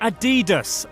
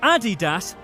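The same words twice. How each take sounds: First: The name is said the American way. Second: The name is said the German way. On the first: The speaker calls it wrong. "not Adidas America" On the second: The speaker calls it right. "which is why the company is called Adidas"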